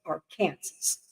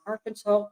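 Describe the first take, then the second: First: Arkansas said ar-KAN-zas, rhymes with Kansas; ar-KAN-zas pronunciation. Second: Arkansas said AR-kan-saw, ending like saw; AR-kan-saw pronunciation. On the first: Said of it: "I was informed many times". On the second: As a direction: say Arkansas as AR-kan-saw, stress first syllable. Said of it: "I have to explain that when I lived in Kansas". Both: Shown as a demonstration.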